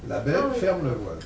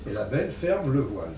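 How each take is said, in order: First: The phrase break comes after 'belle'. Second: The phrase break comes after 'ferme'. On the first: A beautiful woman closes the curtain. "Une jeune femme ferme le rideau" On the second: A beautiful farm hides something from view. "il y a une ferme qui est devant un arbre"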